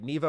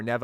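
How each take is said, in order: First: "Neva" with a long ee in the first syllable; first pronunciation guess. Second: "Neva" with a short e in the first syllable; alternative pronunciation guess. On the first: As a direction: say "Neva" as NEE-va. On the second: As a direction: say "Neva" as NEH-va. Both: Shown as a demonstration. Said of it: "I forget how her name's pronounced".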